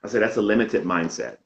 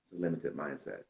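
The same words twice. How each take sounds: First: Saying it again louder so the host can hear; repeating it louder after a "Huh?"; a clearer, louder repeat of the answer. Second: Soft, low-volume answer that gets lost; half-heard reply, quiet and falling; quiet first try of "limited mindset"; faint answer. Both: Real, not acted.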